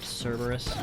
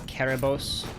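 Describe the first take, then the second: First: The name starts with a soft S sound. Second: The name starts with a hard K sound. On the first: This is the common anglicized form. The speaker calls it wrong. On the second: This follows the original Greek letter. The speaker calls it right. "a more hard K, uh, the letter C as we translate it from Greek"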